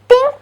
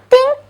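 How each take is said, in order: No difference in how they are said.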